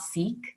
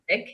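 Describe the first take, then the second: First: The vowel is long, like in 'seek'. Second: The vowel is short, like in 'sick'. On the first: The speaker calls it wrong. "it's not Sikh" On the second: The speaker calls it right. "So the correct pronunciation is sick"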